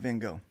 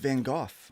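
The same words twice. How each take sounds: First: The name has the usual American pronunciation. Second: The name has a non-American pronunciation. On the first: The speaker calls it wrong. "we pronounce that wrong here in America" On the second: The speaker calls it right. "That's how it's pronounced"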